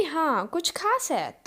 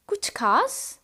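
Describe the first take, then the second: First: कुछ खास है drawn out, falling at the end; answering statement. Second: कुछ खास asked with a rise on खास; questioning tune. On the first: Someone answering that yes, it is special, stated. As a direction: stretch खास slowly and let it drop as an answer. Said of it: "हाँ, वो बोल रहा है कि". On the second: Teacher asking if anything is special today, questioning. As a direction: lift खास at the end as a question. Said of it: "हम पूछ रहे हैं". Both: Shown as a demonstration.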